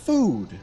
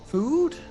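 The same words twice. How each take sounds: First: The voice falls at the end. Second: The voice rises at the end. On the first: It is a plain statement. The speaker calls it wrong. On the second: It is a question. The speaker calls it right.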